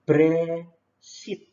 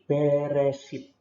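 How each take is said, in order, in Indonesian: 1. Vokal e pertama diucapkan sangat cepat, hampir hilang. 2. Vokal e pertama diucapkan penuh. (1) "E-nya ini cepat banget" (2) "Jadi beresit"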